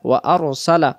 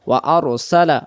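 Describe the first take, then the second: The two takes are said the same way.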